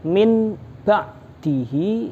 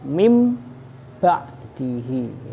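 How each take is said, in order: First: The nasal before the b sounds like n. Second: The nasal before the b sounds like m. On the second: "dibaca mim ba'dihi"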